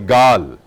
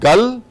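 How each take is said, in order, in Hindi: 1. स्वर लंबा खींचकर बोला जाता है। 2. स्वर छोटा बोला जाता है। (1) "गल को लंबा करके गाल कहते हैं" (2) "पंजाबी में कहते हैं की गल कर रहे हो"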